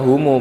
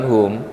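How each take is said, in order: First: The word ends with an added u vowel. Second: The word ends on the m sound. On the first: The word is joined to the following word. "Kok bunyinya humu bukan hum? Iltiqo asakinain" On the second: The reader stops after the word. "Kalau dibaca putus ya hum bacanya"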